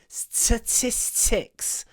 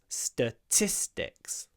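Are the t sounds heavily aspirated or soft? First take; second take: aspirated; soft. First: The t sounds have strong, puffy aspiration. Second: The t sounds are soft, with little aspiration. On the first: The speaker calls it wrong. "Уже чересчур придыхание" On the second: The speaker calls it right. "There we go"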